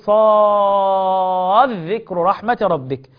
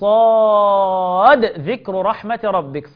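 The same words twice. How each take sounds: First: The d sound merges into the following dh. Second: The d sound is pronounced clearly before dh. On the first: "غيرهم يقرأ بالإدغام" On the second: "بيظهروا ايه؟"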